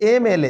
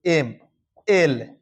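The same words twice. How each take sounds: First: Said in the usual way. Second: "MLA" slowly, each letter set apart; "MLA" broken into separate, slow letters. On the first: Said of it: "ये देखो, MLA". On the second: Shown as a demonstration. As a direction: spell out "MLA" with long pauses between M, L and A. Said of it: "ऐसे लिखते हैं ना".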